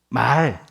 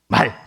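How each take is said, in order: First: The vowel is held long. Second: The vowel is kept short. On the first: It means speech or language. "말 좀 길게 발음한 게 맞다고 합니다" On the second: It means horse. "짧게 발음하는 게 맞다고 합니다"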